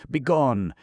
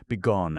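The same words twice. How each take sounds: First: High, loud banishing yell; furious shout. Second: Angry repeat. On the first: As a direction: throw him out with the word Begone. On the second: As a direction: repeat the dismissal, still angry. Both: A narrator's reading. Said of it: "stamping his foot furiously".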